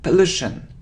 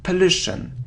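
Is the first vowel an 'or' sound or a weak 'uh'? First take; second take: Weak uh; Weak uh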